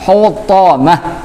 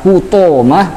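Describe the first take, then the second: First: The middle vowel is a thick a sound. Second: The middle vowel is an o sound. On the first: The speaker calls it right. "dibaca dengan huruf a, tapi a-nya a tebal" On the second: The speaker calls it wrong.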